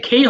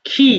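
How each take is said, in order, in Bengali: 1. স্বরধ্বনিটি 'ay' ধ্বনি। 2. স্বরধ্বনিটি 'ee' ধ্বনি।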